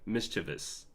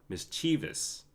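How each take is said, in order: First: The middle syllable is said quickly and clipped. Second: The middle syllable is said slowly and full. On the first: The speaker calls it right. "you just pronounce the C H I faster" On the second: The speaker calls it wrong. "Whereas I was pronouncing it as"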